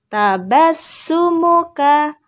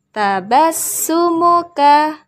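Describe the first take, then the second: The two takes are said the same way.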